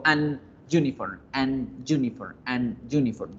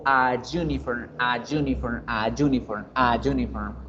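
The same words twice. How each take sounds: First: An uniform broken between an and "yuniform"; cut fluency. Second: A uniform glided together as "ayuniform"; more fluid. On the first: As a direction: stop on the N of an before uniform. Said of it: "Yo corto la fluidez". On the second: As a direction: let a flow straight into the Y of uniform. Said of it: "la pronunciación suena más fluida". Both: Shown as a demonstration.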